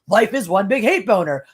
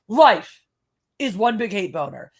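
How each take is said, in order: First: There is no pause after the word life. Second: There is a pause after the word life. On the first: The speaker calls it right. "You want that sentence to read" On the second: The speaker calls it wrong. "That sentence reads"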